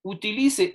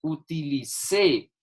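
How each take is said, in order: First: Utilice stressed on LI, final e unstressed; unaccented form. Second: Utilicé slow, stress hit on the final CÉ; accented past form. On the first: Teacher shows students the present form, stress on LI. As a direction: say Utilice with the weight on LI. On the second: Teacher contrasts for students, slow stress on CÉ. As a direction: drag out Utilicé and punch the last syllable. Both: Shown as a demonstration. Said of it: "esto está en presente".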